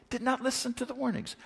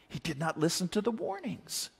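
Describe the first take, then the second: First: "not" hit higher and quicker; emphatic repeat. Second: Said in the usual way. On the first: Shown as a demonstration. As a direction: press the word "not" hard, a touch faster.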